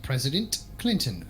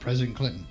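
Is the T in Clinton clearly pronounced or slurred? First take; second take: clear; slurred. First: The T in Clinton is clearly pronounced. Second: The words are slurred in a radio voice. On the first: "that's how I would say it. ... There's a T there, so you pronounce it" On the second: "putting it in the radio voice, it just sounds like I'm like slurring my words"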